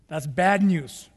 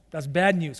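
First: Bad drawn out slowly, falling to the end; slow, weighty. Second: Said in the usual way. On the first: Shown as a demonstration. Preacher lingering on bad news for the congregation, slowly. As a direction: lean slowly on bad and let it fall.

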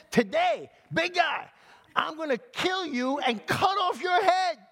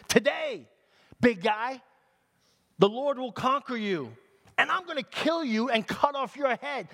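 First: Very high, shouted threat; kid's defiant shout. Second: Raised, high-pitched challenge; defiant threat. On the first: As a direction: yell up at a giant like a bold little kid. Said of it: "This little kid". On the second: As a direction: taunt the giant as young David. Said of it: "He said". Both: Acted.

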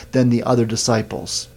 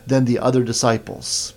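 Both takes have the same delivery.

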